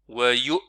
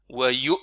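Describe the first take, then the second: No difference in how they are said.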